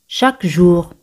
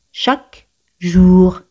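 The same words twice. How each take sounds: First: Said in the usual way. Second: "Chaque ... jour", slow, the words apart; slow demonstration. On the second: Shown as a demonstration. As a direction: draw out "jour" after a gap. Teacher models phrase slowly, then joined.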